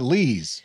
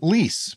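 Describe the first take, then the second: First: The word ends with a buzzing z sound. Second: The word ends with a hissing s sound. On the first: The speaker calls it right. "So I started calling it lees" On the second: The speaker calls it wrong. "Also called lease by me for about four years until fifty thousand people told me I was wrong"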